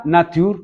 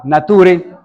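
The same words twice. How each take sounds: First: Nature said the English way, "néi-cher"; English pronunciation. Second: Nature said the Spanish way, "na-tu-re"; Spanish pronunciation. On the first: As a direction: pronounce Nature as in English, slow. ("Nature" pronunciado en inglés) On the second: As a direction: read Nature as a Spanish word, slow. ("Nature" pronunciado en español) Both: Shown as a demonstration. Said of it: "o Nature en español".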